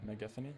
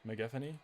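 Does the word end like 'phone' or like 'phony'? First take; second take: phony; phony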